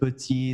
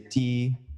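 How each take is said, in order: First: Both syllables are fully pronounced. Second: The first vowel is dropped, one syllable. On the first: "instead of petit" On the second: "they say p'tit"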